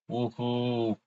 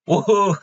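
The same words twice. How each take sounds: First: The cheer sounds weak and unenthusiastic. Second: The cheer sounds loud and energetic.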